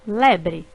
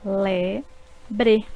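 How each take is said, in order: First: Said in the usual way. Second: Le-bre in two separate beats; syllables split. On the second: Shown as a demonstration. Teacher showing two syllables in lebre. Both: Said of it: "formadas por duas sílabas".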